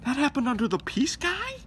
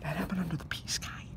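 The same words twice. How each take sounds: First: High loud disbelieving question; incredulous. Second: Hushed conspiratorial whisper. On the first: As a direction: ask it in outraged disbelief. Same words, loud incredulous. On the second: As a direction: lean in and whisper it. Whispered aside. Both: Acted.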